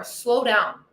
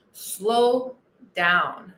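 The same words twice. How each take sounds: First: Said in the usual way. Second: "Slow" drawn out, pause, then "down" low; stretched slow down. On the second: Shown as a demonstration. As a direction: act out the slowing with a long gap between the words.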